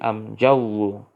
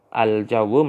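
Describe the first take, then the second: First: The article is pronounced with an m sound. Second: The article is pronounced with an l sound. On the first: This is the Tumtumaniyah dialect form. "Tumtumaniyah itu mengganti lamu ta'rif menjadi mim" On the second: This is the standard Arabic form. "Al-jawu lamnya diganti menjadi mim"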